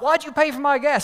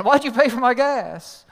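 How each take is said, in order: First: Fast, much louder, higher yell; angry shout. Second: Slower, louder, higher repeated demand; still mad. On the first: Driver first confronting Dan, shouting angrily. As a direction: fire the question at him. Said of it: "the guy was mad". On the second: Driver repeating his question to Dan, slow furious demand. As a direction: hammer each word out in disbelief. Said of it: "He's still mad". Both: Retold or imitated.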